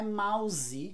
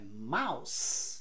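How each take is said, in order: First: The final consonant is a buzzing Z sound. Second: The final consonant is a hissing S sound. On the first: The speaker calls it wrong. "não é mouse" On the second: The speaker calls it right. "é mouse, com S"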